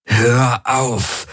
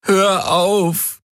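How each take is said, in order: First: High, sharp command; harsh order, raised pitch; snapped command. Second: High, whimpering plea; pleading whimper, much higher. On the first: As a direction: bark it at the voice in his head. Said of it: "herrschte er die Helix an". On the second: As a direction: whimper it, broken by pain. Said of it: "wimmerte er". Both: A narrator's reading.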